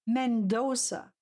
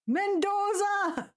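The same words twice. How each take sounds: First: Said in the usual way. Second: "Mendoza!" called out higher, drawn out slowly; calling out. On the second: Real, not acted. Streamer calling out the clue to chat, high and slow. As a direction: call "Mendoza!" out to the room, stretched.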